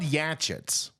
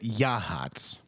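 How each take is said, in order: First: The middle consonant is a hard, spelled-out sound. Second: The middle consonant is a soft 'h' sound. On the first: It follows the spelling. "It's spelled Yachits" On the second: This is how the locals say it. "they think that you pronounce it Yahats"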